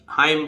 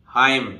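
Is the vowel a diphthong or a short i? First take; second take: diphthong; diphthong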